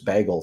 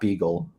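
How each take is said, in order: First: The first vowel sounds like 'bay'. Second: The first vowel sounds like 'bee'. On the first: The speaker calls it right. "I found out it's Bagel today" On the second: The speaker calls it wrong. "It's not Beagle"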